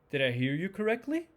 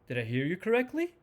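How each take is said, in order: The two takes are said the same way.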